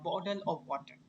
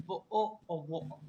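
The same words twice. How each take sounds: First: American accent. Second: "वो ओ ओ वो ओ": bottle of water with glottal stops for Ts; British accent, drop each T into a glottal catch. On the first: Teacher showing students how Americans say it, American accent. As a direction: flap the T's in bottle of water, American style. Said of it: "अगर American होते हैं तो हम simply कहते हैं". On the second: Teacher showing class British bottle of water, T's silent. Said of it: "टी होता है उसमें हम उसको बिल्कुल ही साइलेंट कर देते". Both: Shown as a demonstration.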